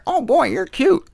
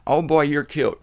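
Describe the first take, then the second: First: High sing-song coo at a pet bird; cooing up high at a parrot. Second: Said in the usual way. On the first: Retold or imitated. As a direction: coax the bird with a high, sweet line. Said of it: "You can tell a parrot".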